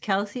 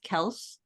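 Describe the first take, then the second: First: The name ends with an 'ee' sound. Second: The name ends with an 's' sound. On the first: The speaker calls it wrong. "it's not pronounced Kelsey?" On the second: The speaker calls it right. "It's pronounced Kels"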